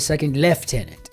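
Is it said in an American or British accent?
British. It is said in a British accent.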